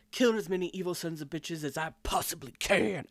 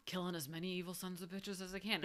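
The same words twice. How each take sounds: First: Punchy emphatic delivery of "Killing as many evil sons of bitches as I possibly can"; emphatic movie-hero line. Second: Softer, understated "killing as many evil sons of bitches as I can"; just toss "as I can" off quietly; casual, unemphatic line; low-key, throwaway. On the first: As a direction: hit the words hard, especially "possibly". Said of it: "he goes". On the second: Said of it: "it's more of kind of like a". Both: Retold or imitated.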